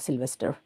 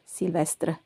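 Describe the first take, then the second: First: The name is pronounced the English way. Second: The name is pronounced the French way. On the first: "a name in English as well" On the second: "en français, in French, ... not Sylvester"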